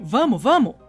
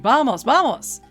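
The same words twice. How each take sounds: First: It is said with a Brazilian Portuguese accent. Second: It is said with a Spanish accent. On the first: The speaker calls it right. "We say" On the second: The speaker calls it wrong. "He's speaking Spanish! We don't say"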